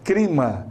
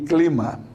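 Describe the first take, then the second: First: It has an R sound instead of L. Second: It has a plain L sound. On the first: This is the regional Cuiabá way of speaking. "trocamos o L pelo R" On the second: This is the standard way of speaking. "no lugar de"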